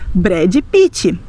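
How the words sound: The name is said with Brazilian Portuguese sounds. It is the normal everyday way among Brazilians. "Eles vão dizer"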